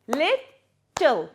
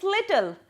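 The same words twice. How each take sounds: First: "Little" broken into two separate syllables; split into syllables. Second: Said in the usual way. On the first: Shown as a demonstration. Teacher showing pupils two syllables, "Little" split in two. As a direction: say "Little" as two beats with a gap between. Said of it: "words with two and three syllables". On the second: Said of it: "Let's see some examples".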